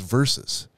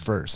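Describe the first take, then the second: First: The word is said with two syllables. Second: The word is said with one syllable. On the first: The speaker calls it right. "It's versus" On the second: The speaker calls it wrong. "not verse"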